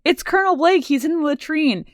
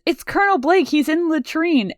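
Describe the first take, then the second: First: High mock Radar yelp; high-pitched Radar retake; imitating Radar again. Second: High mock Radar yelp; high-pitched Radar impression; imitating Radar. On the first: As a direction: squeak it like flustered Radar. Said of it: "Radar runs in and he goes". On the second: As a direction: squeak it out like panicked Radar. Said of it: "Radar runs in and he says".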